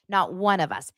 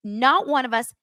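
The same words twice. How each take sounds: First: Said in the usual way. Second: "Not" punched higher, the rest falling; stress on NOT. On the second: Real, not acted. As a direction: hit "Not" hard and high. Repeats for emphasis.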